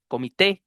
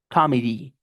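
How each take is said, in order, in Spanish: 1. La palabra termina con un sonido 'eh'. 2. La palabra termina con un sonido 'ee'. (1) "como en español" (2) "con I al final"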